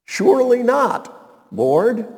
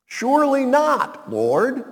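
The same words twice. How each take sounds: First: Slow and loud, leaning on "Surely" to expose it; stressed irony. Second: Mock Peter protest. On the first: Shown as a demonstration. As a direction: drag out "Surely not" to show the contradiction. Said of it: "Interesting contradiction in a phrase". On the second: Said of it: "Peter ... began to rebuke".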